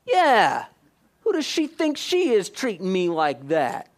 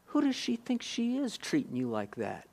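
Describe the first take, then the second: First: Indignant agreement. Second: Whisper. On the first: Man echoing the enemy's whisper, getting indignant. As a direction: get riled up and agree out loud. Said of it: "you go". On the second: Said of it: "And he'll whisper". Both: Retold or imitated.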